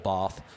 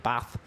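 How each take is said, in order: First: It is said in a posh-sounding way. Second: It is said in a plain, less posh way. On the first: The speaker is posh. "depending how posh you are" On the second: The speaker is not posh. "depending how posh you are"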